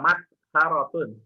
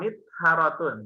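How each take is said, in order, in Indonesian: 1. Suku kata pertama memiliki vokal 'a'. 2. Suku kata pertama memiliki vokal 'i'. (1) "huruf mimnya dibaca fat fathah" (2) "bisa juga dibaca kasroh"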